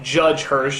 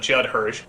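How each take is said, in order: First: The first name ends with a 'j' sound. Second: The first name ends with a 'd' sound. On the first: The speaker calls it wrong. "I could never quite pronounce correctly" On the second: The speaker calls it right. "instead of"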